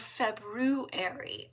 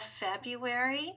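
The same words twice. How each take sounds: First: The word is said with the first r sound. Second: The word is said without the first r sound.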